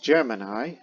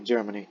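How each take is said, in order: First: The word is said in the standard dictionary way. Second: The word is said the way NASA staff said it. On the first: This is the generally accepted pronunciation. "that's the correct one" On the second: This is how the program's own people said it. "people in NASA at that time and its astronauts kept calling it Germany"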